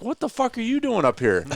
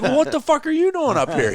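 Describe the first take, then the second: First: High, startled outburst; astonished. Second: Higher, louder, laughing it back; laughing echo. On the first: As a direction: caught totally off guard. Butch recognizing him, stunned. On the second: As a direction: toss his words back through a laugh. Throws the line back, laughing. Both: Retold or imitated.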